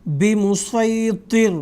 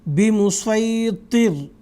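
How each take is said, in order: Both takes have the same delivery.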